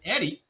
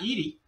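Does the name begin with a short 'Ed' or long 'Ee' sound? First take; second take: short Ed; long Ee. First: The name begins with a short 'Ed' sound. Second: The name begins with a long 'Ee' sound. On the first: The speaker calls it right. "The pronunciation is Eddie" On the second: The speaker calls it wrong. "not Edie"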